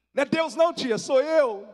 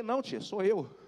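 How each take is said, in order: First: Very high, loud mock yell; comic loud protest. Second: Said in the usual way. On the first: Nephew joking to startled aunt, hammed-up loud protest. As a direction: shout the correction for laughs. Replays reply as a joke.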